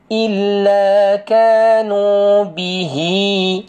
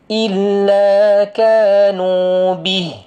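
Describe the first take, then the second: First: The last word ends with a lengthened vowel. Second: The last word is cut short without vowel. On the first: The reading continues into the next words. "saya baca sambung" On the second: The reader stops at this word. "Saya berhenti sini"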